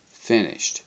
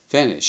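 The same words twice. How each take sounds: First: A milder raised shout in reply; shouted back. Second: A higher, louder one-word shout. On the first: Crew shouts back to the crane man, mildly raised. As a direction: echo the shout back in thanks. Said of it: "we shouted back". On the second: Crane operator shouts his one English word to the ship, grinning. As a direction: call it up from the crane cab, grinning. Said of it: "shouted the dark little man". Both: A narrator's reading.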